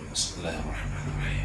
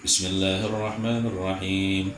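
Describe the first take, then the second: First: It is recited in a quiet, soft voice. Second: It is recited in a loud, audible voice.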